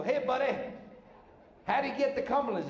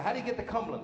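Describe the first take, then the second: First: Lightly disguised voice, pitched up; higher put-on voice, a thin disguise; changed voice. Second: Said in the usual way. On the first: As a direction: pretend to be a different driver asking directions. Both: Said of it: "so I changed my voice".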